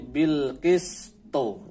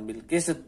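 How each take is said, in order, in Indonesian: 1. Konsonan akhir berakhir dengan pantulan gema. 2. Konsonan akhir berhenti datar tanpa pantulan. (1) "qalqalahnya muncul" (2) "bukan bil qist"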